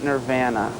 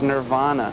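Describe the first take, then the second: First: It is said the Canadian way. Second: It is said the American band's own way. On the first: The speaker calls it wrong. "It's not Nirvana" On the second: The speaker calls it right. "the way we pronounce the name of the band is Nirvana"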